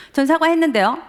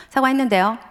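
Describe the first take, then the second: First: 전 사과했는데요 said higher and louder, defiant; heated son. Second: Mildly defiant reply, slightly higher; sulky son, a bit raised. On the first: Son snapping back at his father as the fight escalates, heated. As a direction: fire back 사과했는데요 with rising heat. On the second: Son answering his father in the car, mildly defiant. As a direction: say 사과했는데요 with a touch of teen defiance. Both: Retold or imitated. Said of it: "점점 서로 격해".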